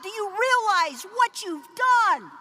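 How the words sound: It is screamed in dramatic alarm. Disaster has just been caused. "someone screamed, ... Yeah, like that"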